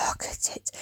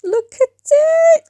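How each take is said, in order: First: A much softer, hushed whisper. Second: Very high, slow, drawn-out squeal; squealed look at it. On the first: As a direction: whisper "Look at it" like a secret. Repeating, fading to a whisper. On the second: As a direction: stretch it into a thrilled high squeal. Showing off the painting progress. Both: Pretend.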